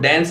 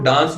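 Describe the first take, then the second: First: It is said in an American accent. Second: It is said in a British accent. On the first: "American accent में इसको डांस बोलते हैं" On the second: "British accent में इसको डांस बोलते हैं"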